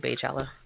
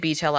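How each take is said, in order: First: The first syllable sounds like 'bay'. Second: The first syllable sounds like 'bee'. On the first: The speaker says it this way. "I say Baychella" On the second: Other people say it this way. "People say Beachella"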